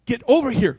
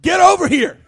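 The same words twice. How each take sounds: First: Level, unhurried call without alarm; calm call. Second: Loud and higher with a laugh in it; half-joking mama order to come now; stern command. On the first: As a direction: call gently so the kids don't startle. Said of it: "I don't wanna run over and spook 'em". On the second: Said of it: "It's more like". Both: Retold or imitated.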